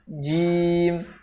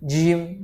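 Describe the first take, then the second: First: The breath is held back at the consonant. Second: The breath flows out audibly after the consonant. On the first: The speaker calls it right. "Nafasnya harus tahan" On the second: The speaker calls it wrong. "ada contoh yang salah"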